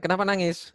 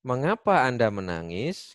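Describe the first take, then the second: First: "Kenapa nangis" higher and quick; everyday casual question. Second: "Mengapa Anda menangis" slow, carefully intoned; correct formal intonation. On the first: Teacher shows how people really ask, quick and high-pitched. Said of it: "jarang mendengar orang bicara pelan". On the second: Teacher models correct Indonesian intonation, slow and formal. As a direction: draw out "Mengapa Anda menangis" like a textbook question. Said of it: "intonasi yang bener adalah". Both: Shown as a demonstration.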